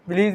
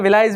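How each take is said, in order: First: The middle vowel sounds like 'ee'. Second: The middle vowel sounds like 'eye'. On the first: "विलीज भी पढ़ते हैं" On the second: "विलाइज भी बोलते हैं"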